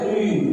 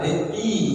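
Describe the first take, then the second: First: The syllable sounds fully heavy, with rounded lips. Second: The syllable sounds lighter, with spread lips. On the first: The speaker calls it wrong. "Nggak boleh tui. Salah" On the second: The speaker calls it right. "ketebalannya berkurang"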